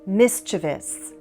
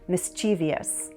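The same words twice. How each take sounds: First: Said without an extra vowel before the ending. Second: Said with an extra vowel before the ending. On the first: This is the standard pronunciation. "This is the standard pronunciation" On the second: This is a common nonstandard variant. "stick in an extra vowel and say mischievous"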